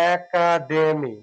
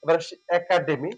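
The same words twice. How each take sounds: First: একাডেমি drawn out very slowly, syllable by syllable; slow careful pronunciation. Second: Said in the usual way. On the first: Shown as a demonstration. Teacher modelling একাডেমি very slowly for students. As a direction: stretch একাডেমি out slowly so students hear each sound. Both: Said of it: "এটা সঠিক উচ্চারণ".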